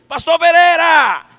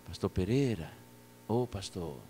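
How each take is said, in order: First: Full, high, drawn-out shout; grito. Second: Low, soft, careful call; baixinho. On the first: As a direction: shout to wake a nearly deaf sleeper. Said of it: "encostei e gritei". (gritando bem alto, arrastado) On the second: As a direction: call softly to someone sleeping. (chamando baixinho, com cuidado) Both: Retold or imitated.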